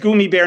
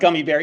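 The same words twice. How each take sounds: First: Gummy is pronounced with a German-style vowel. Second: Gummy is pronounced with an ordinary English vowel. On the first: This is claimed to be the original German form. The speaker calls it right. "people tell me it's German and it's gummy bear" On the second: This is the usual English form. The speaker calls it wrong. "not gummy bear, even though I always said gummy bear"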